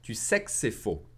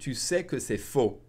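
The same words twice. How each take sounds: First: Said faster, the word que is swallowed. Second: The word que is said fully.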